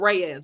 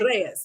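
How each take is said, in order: First: The name is said with an American pronunciation. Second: The name is said with a Spanish pronunciation. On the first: This is how most people in the country say it. The speaker calls it wrong. "the way everybody else in America says it" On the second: This is how the name's owner says it. The speaker calls it right. "But no, it's"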